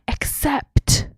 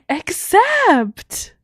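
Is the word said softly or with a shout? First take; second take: softly; shout. First: It is said softly, without much emphasis. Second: It is said loudly, like a shout.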